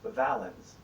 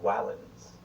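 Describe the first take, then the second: First: The word begins with a V sound. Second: The word begins with a W sound. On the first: "like in the word valens" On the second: "the Romans would have pronounced it closer to Wallens"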